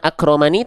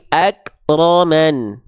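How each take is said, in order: First: The word ends with a short i vowel. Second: The word ends on a bare n consonant. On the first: The speaker calls it wrong. "bukan akromani" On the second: The speaker calls it right. "tapi akroman"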